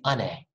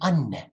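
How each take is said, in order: First: The middle n sound is short. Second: The middle n sound is held long. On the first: The speaker calls it wrong. "We don't say ane" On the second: The speaker calls it right. "we say anne"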